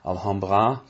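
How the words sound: The name is said with a French pronunciation. "You could pronounce it French"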